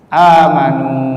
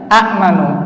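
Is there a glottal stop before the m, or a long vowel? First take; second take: long vowel; glottal stop. First: A long a vowel runs straight into m. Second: A glottal stop closes the first syllable before m. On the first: This is the changed form, easier to say. "hamzahnya ini diubah menjadi huruf yang sesuai dengan fathah ... alif" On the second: This is the original form, heavy on the tongue.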